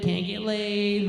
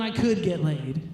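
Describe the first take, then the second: First: Can't get laid drawn out slow; can't get laid, slowed for effect; slow emphatic. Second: Said in the usual way. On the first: Acted. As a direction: lean on each word of can't get laid. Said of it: "I mean, I could get laid". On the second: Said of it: "I mean".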